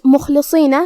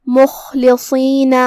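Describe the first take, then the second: First: Said in the usual way. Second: Slow مخلصین with a throaty خ and heavy ص; heavy letters. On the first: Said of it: "بھاری آواز میں پڑھنا ہے". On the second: Shown as a demonstration. Tajweed teacher demonstrating heavy letters to students, slow. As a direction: say مخلصین slowly, خ from the throat, ص thick. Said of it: "صاد کو ہم بھاری آواز میں ادا کریں گے".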